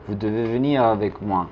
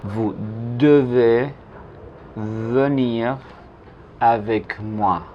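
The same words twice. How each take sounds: First: "Vous devez venir avec moi" as one connected phrase, deu-vé veu-nir; unaccented E. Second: "Vous devez venir avec moi" in spaced chunks, deu-vé, veu-nir; unaccented E, slow. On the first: Teacher repeating the full French sentence, connected and even. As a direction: run it together with rounded E's. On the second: Teacher modelling usted debe venir conmigo, slow and separated. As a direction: go word by word with rounded E in devez and venir. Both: Shown as a demonstration. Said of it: "es una E que no se pronuncia".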